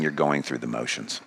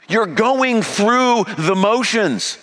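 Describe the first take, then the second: First: Low, soft, sober rebuke; quiet and heavy, letting it sink in; hushed accusation. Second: High, slow, preached accusation; ringing slow preached rebuke; loud accusation. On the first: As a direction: drop it to a grave near-hush. Same accusation, now hushed. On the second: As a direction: drive each word home from the pulpit. Jesus's accusation, voiced loud. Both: Acted.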